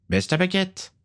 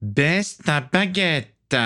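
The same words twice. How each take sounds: First: Ordre bref, voix très aiguë; ordre ferme. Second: Ordre menaçant, très lent, voix haute; étire chaque mot en sifflant de colère; ordre sifflé. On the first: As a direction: commande au garçon, rythme normal. Vampire donne un ordre ferme. (vampire autoritaire, ton haut et ferme) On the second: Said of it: "siffla Stradus". (vampire qui siffle son ordre, syllabes très étirées) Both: A narrator's reading.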